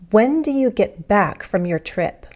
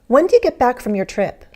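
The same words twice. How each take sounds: First: The sentence is spoken slowly. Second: The sentence is spoken fast. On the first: "More slowly"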